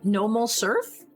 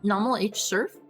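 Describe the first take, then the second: First: The letter H is left silent. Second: The letter H is spoken aloud. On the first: "I think the H is silent" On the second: "Is is that is that not how I'm supposed to say that?"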